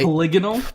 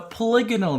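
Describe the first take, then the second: First: The stress falls on an unexpected syllable. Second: The stress falls on the expected syllable. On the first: The speaker calls it wrong. "the emphasis on the wrong syllable" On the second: The speaker calls it right. "I will correct myself"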